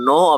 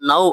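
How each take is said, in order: First: The vowel stays steady, sounding like 'no'. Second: The vowel glides, sounding like 'nau'. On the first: This is the everyday spoken form. "பேச்சு வழக்குல அது நோ அப்படின்னு தான் பேசுறாங்க" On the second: This is the standard form. "ஹிந்தியில நவ் அப்படின்னு சொல்லி சொல்லுவாங்க"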